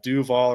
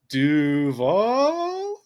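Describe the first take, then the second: First: The voice falls at the end. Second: The voice rises at the end, like a question.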